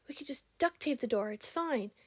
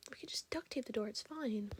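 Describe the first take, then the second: First: Higher mock voice, breezy and dismissive; imitating casual guy. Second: Softer, whispered retelling of the guy's line; whispered guy imitation. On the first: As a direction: toss off the fix like it's nothing. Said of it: "one of the guys goes". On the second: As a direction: murmur it as a fond inside joke. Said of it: "He was just like".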